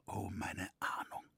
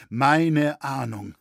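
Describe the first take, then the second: First: Softer whispered despair; whispered lament. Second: Louder, slow despairing cry; anguished outcry. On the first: Roritzer lamenting his foreboding, whispered. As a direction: breathe it out in dread. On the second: Roritzer lamenting his foreboding, anguished outcry. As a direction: let the grief burst out. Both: A narrator's reading.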